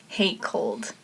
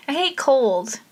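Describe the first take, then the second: First: Low-key, softer delivery; soft, understated grumble; subdued dislike. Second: "hate cold" said higher and firmer; "hate cold" pushed up for emphasis; emphatic dislike. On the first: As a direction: say "hate cold" softly, dropping away. First take, then repeated emphatically. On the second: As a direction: restate it with a lift on "hate cold". Repeats it with more emphasis. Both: Real, not acted.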